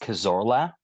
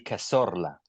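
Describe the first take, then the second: First: The name is said with an English accent. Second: The name is said with a Spanish accent. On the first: "if I had to say it in an English way" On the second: "if you go full Spanish"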